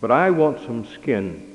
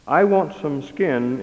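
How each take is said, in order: First: A hint of a small child asking, leaning on I; quick little plea, barely voiced as a child; the child answers the parents with a small plea; lightly voiced child's plea. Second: I want some skin said slowly, leaning hard on want; the preacher recalls the child's plea, slow and weighty; weighty quote. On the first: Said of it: "the child quickly responded". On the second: Shown as a demonstration. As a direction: lift the child's words into a slow solemn statement. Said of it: "is not the cry of only a child".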